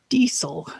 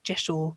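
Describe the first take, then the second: First: It begins with a 'dee' sound, two syllables. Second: It begins with a 'j' sound, two syllables. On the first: "the pronunciation that was offered" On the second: "most people in the pagan world pronounce it"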